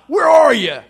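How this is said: It is said in a harsh, angry tone. The caller is seeking revenge. The speaker calls it wrong. "like some angry mobster banging on the door, seeking revenge"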